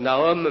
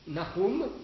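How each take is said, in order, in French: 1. Le nom se prononce à la manière du vieux français. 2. Le nom se prononce à la manière hébraïque. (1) "en français, on disait autrefois plutôt Nahum" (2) "si on prononce à la manière hébraïque"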